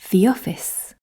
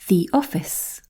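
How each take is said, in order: First: The words run together with no gap. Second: There is a short gap between the words. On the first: "The answers are joined"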